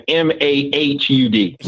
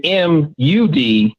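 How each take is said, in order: First: M A H U D spelled out to tease a stretched vowel; teasing letter-by-letter M A H U D; mock drawn-out spelling. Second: M U D spelled slowly, letter by letter; slow, separate letters on M U D; spelled-out MUD. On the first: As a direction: spell M A H U D, amused, about to laugh. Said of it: "the way it's coming out is like". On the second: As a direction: give each letter of M U D its own beat. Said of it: "because he's saying M U D". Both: Shown as a demonstration.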